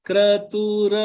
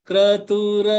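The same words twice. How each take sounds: No difference in how they are said.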